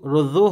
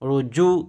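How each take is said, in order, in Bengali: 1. 'j' ধ্বনিটি নরম ও দুর্বল। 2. 'j' ধ্বনিটি শক্ত ও দৃঢ়। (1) "রুজু রুজু হবে না" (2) "রুজু জিম শক্ত হবে"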